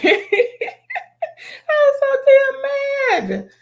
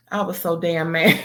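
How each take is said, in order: First: Much higher and louder, slow, laughing through it; laugh-cry the words in disbelief; laughing, half crying. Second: Said in the usual way. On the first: Real, not acted.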